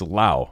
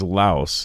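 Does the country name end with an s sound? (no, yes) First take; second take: no; yes. First: The name ends without an s sound. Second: The name ends with an s sound. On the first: This is how people in the country say it. "that's how they pronounce it" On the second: This is how people in America say it. "in America, like, it's known as Laos"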